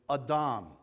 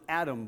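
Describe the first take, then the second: First: The word is said with a Hebrew pronunciation. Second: The word is said with an English pronunciation. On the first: "but it's Adam" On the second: "We pronounce it Adam"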